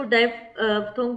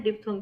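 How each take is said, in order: First: "डायफ्थोंग" with a "dye" start, like "daay-fthong"; diphthong said "dye". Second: "डिप्थोंग" with a short "dip" start and a "th" sound; diphthong said "dip". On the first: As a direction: open it as "डायफ्थोंग", the dai sound first. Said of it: "इसको डायफ्थोंग भी पढ़ सकते हैं". ("डायफ्थोंग" को "डाय" से शुरू करके बोलना) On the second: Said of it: "डिप्थोंग भी पढ़ सकते हैं". ("डिप्थोंग" को छोटी इ के साथ "डिप" से बोलना) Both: Shown as a demonstration.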